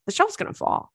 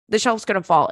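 First: High, soft, anxious squeak; mock alarm. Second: Said in the usual way. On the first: To himself eyeing the tilted shelf, high worried squeak. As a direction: fret that the shelf will fall.

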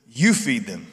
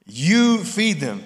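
First: Said in the usual way. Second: "You" stressed, drawn out slow, higher and louder; emphatic you. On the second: Shown as a demonstration. Pastor showing the congregation Jesus hitting "You" in "You feed them". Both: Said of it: "the word "you" was emphatic".

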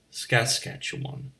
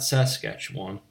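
First: "Saskatchewan" whispered slowly, skas-KATCH-uh-wun; slow, breathy four-syllable "Saskatchewan"; corrected Saskatchewan. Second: "Saskatchewan" said quickly, sas-KATCH-wan; clipped three-syllable "Saskatchewan"; first Saskatchewan. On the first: Insisting on the real name, slow whispered pronunciation. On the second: Correcting his own hometown's name, clipped pronunciation. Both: Shown as a demonstration. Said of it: "I'll give you an example".

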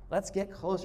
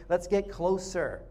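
First: Said in the usual way. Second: Drawn-out, slow invitation to come closer. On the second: Shown as a demonstration. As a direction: stretch each word out gently.

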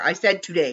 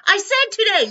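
First: Said in the usual way. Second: Much higher, louder insistence on "said"; hammered-up argument voice. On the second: Retold or imitated. Retelling a quarrel with co-host.

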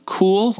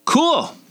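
First: High, questioning echo; incredulous repeat. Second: Very high, blurted reply; awkward squeal. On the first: Cringing at her own reply to Sebastiano, incredulous rising echo. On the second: Face to face with Sebastiano, awkward high blurt. Acting her own embarrassing reply. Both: Retold or imitated.

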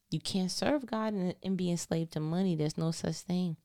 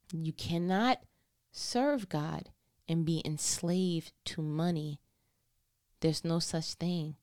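First: Said in the usual way. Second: Slow, spaced out, low; grave emphasis. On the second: Real, not acted. Preacher restates the warning to congregation, slow and deliberate. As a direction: set down "cannot", "serve God" and "money" one weighty piece at a time.

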